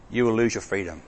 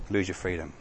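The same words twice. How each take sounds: First: Said in the usual way. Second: The phrase repeated much softer and lower; quiet echo. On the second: Shown as a demonstration. Preacher echoing the warning to the congregation, hushed. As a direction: let it fall away to almost nothing.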